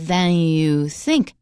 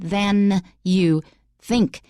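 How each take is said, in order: First: The final N of 'than' is dropped. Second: The final N of 'than' is clearly pronounced. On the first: The speaker calls it wrong. "you're missing, and you are, in fact, missing the final N" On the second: The speaker calls it right. "but it should be"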